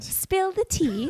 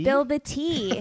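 First: It is said in a put-on British accent. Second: It is said in the speaker's ordinary accent.

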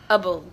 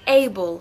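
First: It is a short, reduced weak syllable. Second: It is a full 'able' like the word able. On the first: "sino able" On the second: "Ya no estamos diciendo able"

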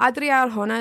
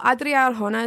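First: The name is said with Spanish-style sounds. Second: The name is said with Spanish-style sounds.

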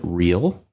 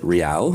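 First: It is said with an English pronunciation. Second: It is said with a Spanish pronunciation. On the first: The speaker calls it wrong. "they don't pronounce it real" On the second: The speaker calls it right. "They pronounce it real, and it is Spanish for royal"

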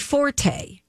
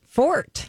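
First: The word is said with two syllables. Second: The word is said with one syllable. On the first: "It sounds better and more French" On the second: "but apparently it's just Fort"

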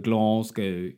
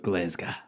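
First: It is said in an English-sounding accent. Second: It is said in a broad Glaswegian accent. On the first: An outsider says it this way. "you go Glasgow if you're me" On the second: A true local says it this way. "the real Glaswegian people will go"

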